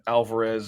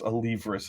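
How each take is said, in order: First: The name begins with the sounds 'Al-var'. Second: The name begins with the sounds 'A-liv'. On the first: The speaker calls it wrong. "somebody screwing it up and mispronouncing it" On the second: The speaker calls it right. "it's Alivris. It's Greek"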